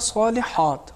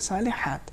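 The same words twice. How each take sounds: First: The ha is said thick and heavy. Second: The ha is said thin and light. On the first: The speaker calls it wrong. "انہوں نے پڑھا صالحات، حات نہیں ہونا چاہیے" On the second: The speaker calls it right. "حا میں تفخیم نہیں ہے"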